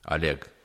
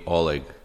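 First: The first vowel sounds like an A. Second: The first vowel sounds like an O. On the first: This is how people back home say the name. "pronounce like a first O like A" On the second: This is how Americans say the name. "like all Americans, they calling me Oleg"

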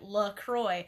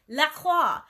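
First: The name is said with an American pronunciation. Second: The name is said with a French pronunciation. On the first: The speaker calls it wrong. "this town in Minnesota says it this way. They say it LaCroix" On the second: The speaker calls it right. "it's a French word. It means the cross. They say it La Croix. That's how you say it"

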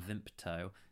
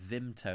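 First: It is said with a p sound. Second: It is said without a p sound. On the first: The speaker calls it wrong. "I put a P in it a minute ago" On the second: The speaker calls it right. "It's Vimto"

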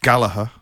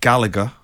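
First: The middle g is not pronounced. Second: The middle consonant is a hard g. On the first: "If you're Irish, ... We don't do the G" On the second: "If you're Mancunian"

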